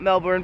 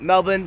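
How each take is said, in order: First: The word is said with an R sound. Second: The word is said with no R sound. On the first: The speaker calls it wrong. "not Melbourne" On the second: The speaker calls it right. "That's right, Melbourne"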